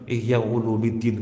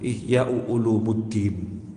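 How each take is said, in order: First: The vowel before 'ddin' is an 'i' sound. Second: The vowel before 'ddin' is a 'u' sound. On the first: It follows the grammar rule. "nggak boleh kasroh" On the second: It shows reverence for the book. "harus domah"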